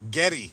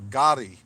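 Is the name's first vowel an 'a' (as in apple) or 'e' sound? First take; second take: e sound; a sound. First: The first vowel sounds like the e in 'get'. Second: The first vowel sounds like the a in 'apple'. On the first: The speaker calls it wrong. "There's no e there" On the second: The speaker calls it right. "It's an a. ... like apple"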